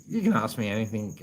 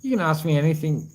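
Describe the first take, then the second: First: Lower, softer repeat of the offer. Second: Said in the usual way. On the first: Real, not acted. Repeating the offer to Eli, lower and softer. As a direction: ease off and say it again gently. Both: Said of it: "brother Eli".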